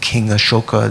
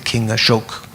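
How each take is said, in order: First: The name ends with a final 'a' vowel. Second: The name ends on the consonant 'k'. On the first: This is the older form with the final vowel kept. "Instead of saying King Ashoka" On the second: This is the modern Hindi form. "they often drop the final A"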